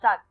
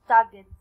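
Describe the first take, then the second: First: The final d follows the g with no vowel. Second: An extra vowel is said before the final d. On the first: The speaker calls it right. "without صوت ال E" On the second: The speaker calls it wrong. "مش تاجت for example, no"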